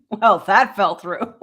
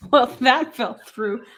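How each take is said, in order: First: Laughing. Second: Deadpan. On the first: Retold or imitated. Repeating line, laughing. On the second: Real, not acted. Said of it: "The way you just said that with a straight face".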